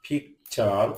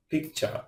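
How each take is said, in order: First: picture broken as পিক, চার; split into syllables. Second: Said in the usual way. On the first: Shown as a demonstration. Teacher showing learners what a syllable is, split into syllables. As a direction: say picture in two separate beats. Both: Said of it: "যতটুকু অংশ একসাথে উচ্চারণ করা".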